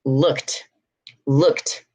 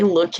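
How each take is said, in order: First: "looked" lower, as lookt; one syllable "looked", ending on T; final T sound. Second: "looked" mispronounced as look-id; wrong extra syllable. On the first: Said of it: "You're gonna say". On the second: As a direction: sound the E in "looked". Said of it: "you're not gonna say". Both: Shown as a demonstration.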